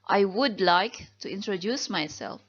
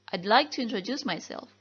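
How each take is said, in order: First: The words 'I would' are said in full. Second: The words 'I would' are contracted to 'I'd'. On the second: "disingkat menjadi"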